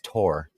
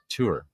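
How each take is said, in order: First: The vowel sounds like the one in 'more'. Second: The vowel sounds like the one in 'poor'. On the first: "like you tore the piece of paper" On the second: "the way I said tour"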